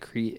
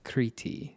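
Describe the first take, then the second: First: It is said as one syllable, Creet. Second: It is said as two syllables, Kriti. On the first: This is how an American would say it. "if I said it like an American" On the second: This is the native Greek pronunciation. "the way that I'm reading it is Crete, like K-R-I-T-I"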